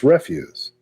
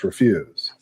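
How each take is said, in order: First: The stress is on the first syllable. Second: The stress is on the second syllable. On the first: It means trash. "if it's trash, it's refuse" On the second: It means saying no. "But if you're saying no, it's refuse"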